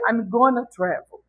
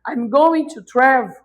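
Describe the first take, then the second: First: The phrase is said quickly with reduced 'gonna'. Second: The phrase is said slowly with full 'going to'. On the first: "é muito mais rápido dizer" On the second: "I'm going to, aí demora muito"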